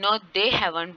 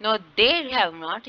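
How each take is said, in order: First: Said in the usual way. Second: "they" said louder and drawn out, the rest very slow; stress on they. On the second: Shown as a demonstration. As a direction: lean hard on "they", slowly. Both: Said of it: "यहाँ पे they पे stress आ रहा है".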